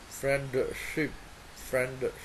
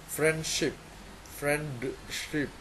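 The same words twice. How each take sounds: No difference in how they are said.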